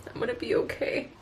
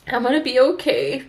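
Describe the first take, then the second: First: Breathless whisper of self-comfort; whispered to herself. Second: Said in the usual way. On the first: Real, not acted. Repeating it to herself after crying, in a whisper. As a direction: barely voice it, just to yourself.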